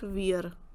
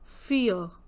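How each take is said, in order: First: The word begins with a v sound. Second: The word begins with an f sound. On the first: The speaker calls it wrong. "not weir" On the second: The speaker calls it right. "So every time the sound is F"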